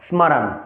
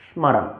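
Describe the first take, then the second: First: Each letter, including the m, is pronounced separately. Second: The same.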